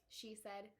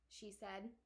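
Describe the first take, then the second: The two takes are said the same way.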